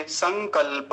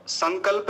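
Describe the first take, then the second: First: संकल्प said "san-kal-pa"; full final pa. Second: Said in the usual way. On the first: Shown as a demonstration. Teacher correcting students, full pa in संकल्प. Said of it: "प पर विशेष ध्यान देंगे". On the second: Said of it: "संकल्प नहीं बोलेंगे".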